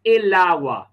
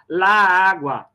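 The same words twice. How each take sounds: First: "el agua" run together as "e-lagua"; fluent linking. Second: "lá água" with the two A sounds kept apart; clashing hiatus. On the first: Teacher showing the fluent form, "el agua" smoothly linked. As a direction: link the L of "el" straight into "agua". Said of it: "pra ficar mais fluente na língua". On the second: Teacher showing how ugly it sounds, clashing hiatus in "lá água". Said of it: "vai ficar assim, ó". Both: Shown as a demonstration.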